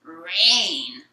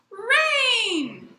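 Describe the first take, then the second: First: Loud, drawn-out grumpy groan of a word; grumpy old man. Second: High, loud, long joyful cry; jubilant young boy. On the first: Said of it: "what starts as a grumpy old man". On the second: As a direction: shout it out like a thrilled little boy. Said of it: "a jubilant boy, young boy". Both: Retold or imitated.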